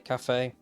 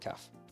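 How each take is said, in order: First: The word has an American pronunciation. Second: The word has a non-American pronunciation. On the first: "I know you Americans say cafe" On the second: "but I say caf"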